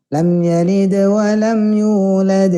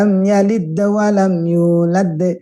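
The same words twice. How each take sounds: First: The consonant release flows smoothly without a bounce. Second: The consonant release bounces without flowing on. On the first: The speaker calls it right. "harus mengalir" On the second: The speaker calls it wrong. "Mantul tapi tidak mengalir"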